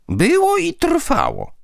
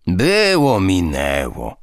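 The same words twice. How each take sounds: First: "Było" pitched much higher, slow and firm; said forcefully. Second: Said in the usual way. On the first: A narrator's reading. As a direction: hammer home "Było i trwało". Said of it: "powiedziała z mocą Dusia". (z mocą, wolno, "Było" wysoko i dobitnie) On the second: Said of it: "grandpa waves it off".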